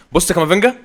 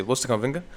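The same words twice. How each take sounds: First: Higher and louder call to look; excited shout. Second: Said in the usual way. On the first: Real, not acted. Gamer calling viewers to watch his player, excited shout. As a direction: grab the viewers' eyes with his name.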